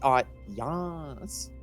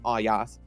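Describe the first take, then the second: First: The name ends in a drawn-out 'yas' sound. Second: The name is said plainly, without a 'yas' ending. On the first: The speaker calls it right. "It's Ayas" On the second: The speaker calls it wrong. "it isn't Ayas"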